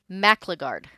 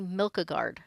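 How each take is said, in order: First: The name begins with a 'mac' sound. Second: The name begins with a 'milk' sound. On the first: The speaker calls it right. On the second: The speaker calls it wrong.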